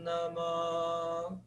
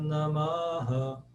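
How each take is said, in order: First: The final h sound is silent. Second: The final h is echoed with a vowel. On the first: "passou a ser um som mudo no meio da frase" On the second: "a soar como um eco no final"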